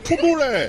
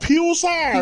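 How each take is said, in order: First: The middle consonant is a t sound. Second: The middle consonant is a ch sound. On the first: The speaker calls it wrong. "Not ফুতুৰে" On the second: The speaker calls it right. "সেইটো উচ্চাৰণ ফিউচাৰ"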